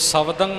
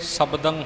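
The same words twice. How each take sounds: First: The middle consonant is a 'v' sound. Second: The middle consonant is a 'b' sound. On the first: The speaker calls it wrong. "सो शब्दं ना होवे" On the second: The speaker calls it right. "शब्दं होवे भाव के बुੱਲ जुड़ के बब्बे का उचारण होना चाहिए"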